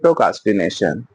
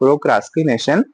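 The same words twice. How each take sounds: First: The middle R sound is light, nearly dropped. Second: The middle R sound is clearly pronounced. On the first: "पर हम बोलते हैं ... कभी कभी आर हम हल्का" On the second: "आर है इट इज अ प्रोक्रास्टिनेशन"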